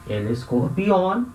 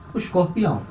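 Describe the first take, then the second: First: Slow Spanish "El escorpião", ending in -ON; careful Spanish model word, ESCORPIÃO with a clear initial E; Spanish pronunciation. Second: Said in the usual way. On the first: Shown as a demonstration. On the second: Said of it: "El escorpião".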